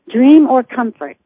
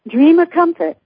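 First: It is said with a neutral accent. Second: It is said with a Boston accent.

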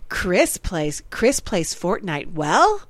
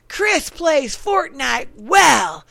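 First: It is said with a questioning, rising inflection. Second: It is said with an emphatic, exclaiming inflection. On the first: It asks whether the claim is true. "Is that a question mark? ... but I had my inflection" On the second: It states the claim with excitement. "that's an exclamation point"

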